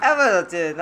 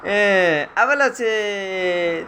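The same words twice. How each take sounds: First: Said in the usual way. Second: Drawn out. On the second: Real, not acted. Parent coaxing toddler to walk.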